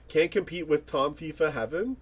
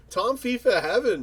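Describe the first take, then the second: First: "Tom fifa Heaven" lifted into a puzzled question; reading the comment aloud. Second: "Tom fifa Heaven" called out higher and louder, falling on "Heaven"; excited recognition. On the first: Streamer reading a viewer's comment, asking. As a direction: read the name out like a query, rising on "Heaven". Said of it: "Tom fifa Heaven, man". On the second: Streamer greeting a longtime reaction channel, excited. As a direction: hail the name like an old favourite. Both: Acted.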